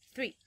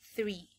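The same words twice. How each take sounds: First: The vowel is said short. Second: The vowel is said long. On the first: The speaker calls it wrong. "No es three" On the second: The speaker calls it right. "es un poquitito más largo"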